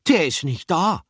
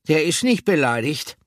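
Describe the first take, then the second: First: „Der“ punched high and loud at the start; „DER ist nicht da“ with the weight on „Der“; stress on DER. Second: „nicht“ punched higher and louder, rising at the end; „Der ist NICHT beleidigt“ with a rising „nicht“; stress on NICHT. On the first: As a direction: lean on „Der“ to point at the empty tin. Pomme de Terre reveals absence. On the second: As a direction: hit „nicht“ to correct them. Pomme de Terre corrects friends. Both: A narrator's reading.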